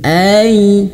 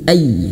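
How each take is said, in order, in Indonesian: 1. Bunyi ai itu lembut dan halus. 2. Bunyi ai itu kasar dan keras. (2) "jangan kasar"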